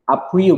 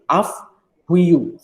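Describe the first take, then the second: First: The first word ends in a plain p sound. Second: The first word ends in an f-like sound. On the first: The speaker calls it wrong. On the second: The speaker calls it right. "P-nya diganti jadi V, PH"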